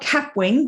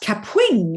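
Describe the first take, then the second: First: The word is said flatly, without extra energy. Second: The word is said with strong, playful emphasis. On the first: The speaker calls it wrong. "Not Kapwing" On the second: The speaker calls it right. "use a bit of emphasis"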